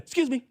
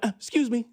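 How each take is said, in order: First: "Excuse me" in a small mock polite voice, a touch higher; imitating Nathan. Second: A hint of Nathan's timid interruption; mock polite "Uh, excuse me", lightly voiced; imitating Nathan. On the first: Nathan cutting into the meeting, mock timid polite voice. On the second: Nathan cutting into the meeting, lightly imitated timid interruption. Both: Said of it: "That's how he said it, just like that".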